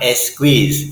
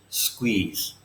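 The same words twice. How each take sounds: First: The word begins with a vowel before s. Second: The word begins directly with an s sound. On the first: The speaker calls it wrong. "It is not squeeze" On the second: The speaker calls it right. "It is squeeze"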